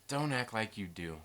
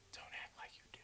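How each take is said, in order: First: Said in the usual way. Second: Barely audible whisper; hushed, voiceless aside. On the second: Real, not acted. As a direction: whisper it teasingly to the audience. Teasing viewers, repeated as whisper.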